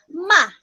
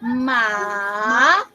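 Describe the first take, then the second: First: The pitch falls sharply and forcefully. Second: The pitch dips down and then rises. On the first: "the fourth tone is going down" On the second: "the downward and upward motion of your voice"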